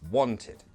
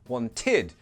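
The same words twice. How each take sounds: First: The stress falls on the first syllable. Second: The stress falls on the last syllable. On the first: The speaker calls it right. "the ed, it's never stressed" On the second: The speaker calls it wrong. "So it's not wanted, needed, never that"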